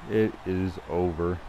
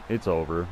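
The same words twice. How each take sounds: First: "It is over" slowly, word by word; slow, emphatic. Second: Said in the usual way. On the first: Real, not acted. Gamer declaring the game finished, slow and emphatic. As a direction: spell out "is" in full, unhurried.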